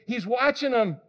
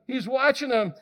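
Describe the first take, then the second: No difference in how they are said.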